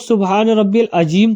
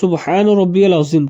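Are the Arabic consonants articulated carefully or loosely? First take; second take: loosely; carefully. First: The Arabic consonants are articulated loosely. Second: The Arabic consonants are articulated carefully. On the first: The speaker calls it wrong. "बहुत सारे लोग ... कहते हैं, तो ऐसा नहीं कहना है" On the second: The speaker calls it right. "मखरज की अदायगी देखना चाहिए"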